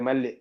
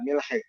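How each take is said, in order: First: It is said mall, ending in a doubled l. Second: It is said milh, ending in an h sound. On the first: Shopkeepers in the Gulf understand it. "മിൽഹിന്റെ മീമിന്റെ കെസർ പോയി ലാമും ഹായും കൂടെ ചേർത്തിട്ട് ഷെഡ് കൊടുത്താ പറയാ മല്ല്" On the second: Only native Arabic speakers would understand it. "അതാണ് ശരിയായ ഉച്ചാരണം"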